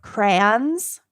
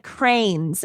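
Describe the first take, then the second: First: Said in the usual way. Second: "cranes" for crayons, one syllable with a long A; grandpa's "cranes". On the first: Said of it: "instead of "crayons". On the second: Retold or imitated. Granddaughter quoting grandpa, crayons as "cranes". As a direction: say crayons just like the birds, "cranes". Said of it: "he also said cranes instead of crayons".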